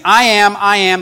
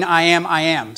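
First: "I am, I am" punched louder; emphatic I AM. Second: Said in the usual way. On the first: Shown as a demonstration. Pastor showing the Greek emphasis, emphatic. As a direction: hit "I am" like all caps. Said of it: "Think caps, all caps". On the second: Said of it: "the Greek way of emphatic".

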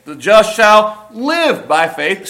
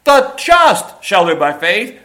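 First: Live rising and slow; stress on live. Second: Just rising and slow; stress on just. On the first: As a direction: lean on live. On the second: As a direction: lean on just. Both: Shown as a demonstration. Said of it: "you emphasize each word".

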